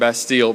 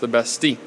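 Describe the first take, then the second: First: The word is said the way it is spelled. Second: The word is said differently from its spelling. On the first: The speaker calls it wrong. "Looks like Bastille" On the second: The speaker calls it right. "but it's pronounced the Bastille"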